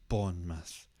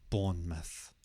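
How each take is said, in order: Both takes have the same delivery.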